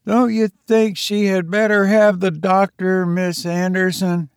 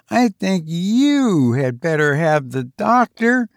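First: Said in the usual way. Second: "you" pressed firmly, a pointed jab; stress on you. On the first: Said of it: "says she". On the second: Acted. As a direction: lean hard on "you" as a hint at someone. Pointed reply hinting at Luella.

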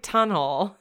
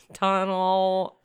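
First: TUNNEL said "TUN-ul", rising at the end; tentative "tunnel" with a short second syllable; trying a pronunciation. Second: TUNNEL drawn out toward "TON-awl"; second try at "Tunnel", broader vowels; trying another pronunciation. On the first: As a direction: offer tunnel as the everyday word, questioningly. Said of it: "It's called, like". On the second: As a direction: stretch Tunnel with an open first vowel, "tahn-ull". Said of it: "I can never say it right". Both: Shown as a demonstration.

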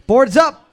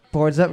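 First: Loud, high quizmaster call. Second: Said in the usual way. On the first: Real, not acted. Host calls time to teams.

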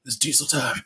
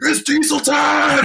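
First: Softly delivered mock catchphrase; quiet catchphrase. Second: High, drawn-out mock yell; hammed-up high-pitched holler, stretched out; imitated screaming. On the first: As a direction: imitate a quiet, deadpan reveal. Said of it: "He goes". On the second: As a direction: yell it like a goofy catchphrase. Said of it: "he just starts screaming".

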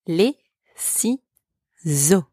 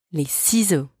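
First: Les ciseaux drawn out slowly; slow teaching model of Les ciseaux; slow syllable demo. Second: Said in the usual way. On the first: Shown as a demonstration. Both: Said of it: "Repeat after me".

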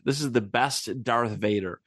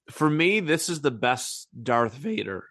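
First: Said in the usual way. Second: Voice cracking. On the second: Real, not acted. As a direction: voice cracks mid-sentence. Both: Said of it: "My voice just cracked".

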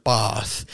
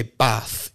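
First: "bath" with a long southern AH; drawn-out AH in "bath", southern English style; southern long-vowel bath. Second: "bath" with a short northern A; short, flat-A "bath" as in northern England; northern short-vowel bath. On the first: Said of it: "say bath instead of bath". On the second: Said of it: "influence her to be more northern". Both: Shown as a demonstration.

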